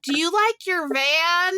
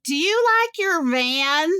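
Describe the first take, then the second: First: Higher, slow, leaning on like; lightly voiced stranger repeating herself; imitating a friendly stranger. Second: Higher, slower, sing-song question leaning on you; lightly voiced chatty stranger; imitating a friendly stranger. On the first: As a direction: ask again, slowly and patiently. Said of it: "She goes". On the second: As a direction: ask the old lady sweetly, slowly. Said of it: "the woman on the bench goes".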